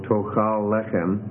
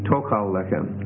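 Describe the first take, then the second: First: The stress of tochal is on its second syllable. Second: The stress of tochal is on its first syllable. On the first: "have two things stressed in a row" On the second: "have the stress move back a syllable"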